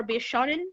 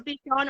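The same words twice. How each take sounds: First: "Bishonen" said as the longer name; three-syllable name. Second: "Bishon" said as the shorter name; two-syllable name. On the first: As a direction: say "Bishonen" with an extra final syllable -en. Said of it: "if it's Bishon or Bishonen". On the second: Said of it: "how to pronounce their name". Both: Shown as a demonstration.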